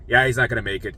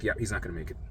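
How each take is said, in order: First: Said in the usual way. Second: Said low and quiet. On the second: Retold or imitated. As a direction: drop voice low and soft. Doctor's verdict, low quiet take.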